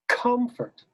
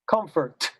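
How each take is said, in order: First: The opening C is the loudest consonant. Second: A later consonant is louder than the C. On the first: The speaker calls it right. "It's comfort" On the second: The speaker calls it wrong. "not comfort"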